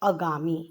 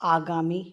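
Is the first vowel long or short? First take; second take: short; long. First: The first vowel is a short a. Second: The first vowel is a long aa. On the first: The speaker calls it wrong. "हम आ का उच्चारण अ में करते हैं" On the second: The speaker calls it right. "शुद्ध स्वर है"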